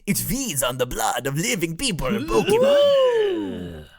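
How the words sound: It is read in a creepy, spooky voice.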